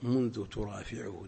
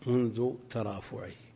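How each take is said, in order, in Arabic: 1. ضُبطت بالفعل 'turāfiʿuh'. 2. ضُبطت بالاسم 'tarāfuʿih'. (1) "وكأن الأصوب منذ ترافعه، لأن هي التي ترفع الأمر ليس هو" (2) "عندنا ضبطت منذ ترافعه"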